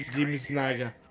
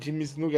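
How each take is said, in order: First: The surname's first vowel is an 'ah' sound. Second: The surname's first vowel is an 'oo' sound. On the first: The speaker calls it wrong. "hai detto Jimmy Snaga" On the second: The speaker calls it right. "invece di dire Jimmy Snuka"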